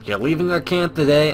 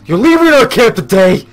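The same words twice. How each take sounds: First: It is read in a plain voice. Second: It is read in a gruff drill-sergeant voice.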